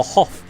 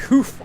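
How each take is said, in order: First: "Hof" pronounced with an open o, not oo. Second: "Hoof" pronounced with a rounded oo sound. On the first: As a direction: say "Hof" with a short o, rhyming with "off". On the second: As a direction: say "Hoof" with an oo vowel, as in "hoof". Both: Shown as a demonstration. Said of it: "Is it Hoof or Hof?".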